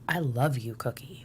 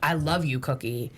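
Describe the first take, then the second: First: It is said in a low, intimate voice. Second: It is said in a normal, higher voice.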